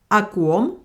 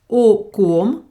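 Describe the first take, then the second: First: The first vowel is reduced to an 'a' sound. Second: The first vowel is a full 'o' sound.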